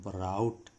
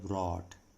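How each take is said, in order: First: The vowel sounds like 'ow' in cow. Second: The vowel sounds like 'aw' in saw. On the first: The speaker calls it wrong. "कई छात्र जो है इसको ब्राउट इस तरह से पढ़ते हैं" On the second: The speaker calls it right. "इसका जो सही उच्चारण है वो है ब्रॉट"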